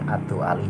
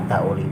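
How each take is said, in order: First: The name is said with separate vowels 'du-a'. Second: The name is said with a diphthong 'dau'. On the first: "Adu Ali juga boleh" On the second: "ini bisa dibaca Ad-Dauli boleh"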